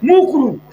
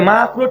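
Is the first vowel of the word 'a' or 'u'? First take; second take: u; a. First: The first vowel is a rounded 'u' sound. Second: The first vowel is an open 'a' sound. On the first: The speaker calls it wrong. "ঠিক করে বলে না" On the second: The speaker calls it right. "ঠিক করে বলে না"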